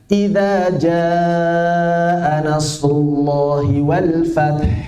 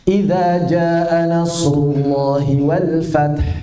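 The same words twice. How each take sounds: First: The vowel in 'jaa' is drawn out long. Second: The vowel in 'jaa' is held only briefly. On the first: The speaker calls it right. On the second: The speaker calls it wrong. "Seperti nggak ada mad"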